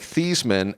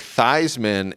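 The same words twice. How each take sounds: First: The first syllable sounds like 'thees'. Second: The first syllable sounds like 'thighs'. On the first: This is the family's original pronunciation. "It's pronounced like T H E E S" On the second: This version rhymes with the name of a famous trophy. "rhyme it with the Heisman"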